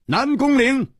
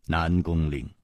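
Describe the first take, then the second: First: High, pained cry of the name; anguished call. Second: Low, soft, sorrowful name-call; sighing. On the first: Hero confronts his treacherous friend, anguished cry. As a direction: cry the name out, far higher. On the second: Hero addresses his treacherous friend, sighing. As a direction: sigh the name out quietly. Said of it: "仰天叹道". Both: Acted.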